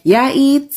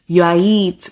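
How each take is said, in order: First: "Yeah, eat" pitched high as a question. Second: "you are eat" at usual pitch, as a statement; non-question tone. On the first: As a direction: ask "Yeah, eat" through high tone alone. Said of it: "questions ... just changed based on tone". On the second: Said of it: "means something completely different just because of the tone". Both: Shown as a demonstration.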